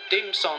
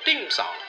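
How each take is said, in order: First: It is said with flat English intonation. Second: It is said with Cantonese-style word tones. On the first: The speaker calls it wrong. "按照我英语的发音来讲" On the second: The speaker calls it right. "老师你这个音调不对，可能会叫dim sum"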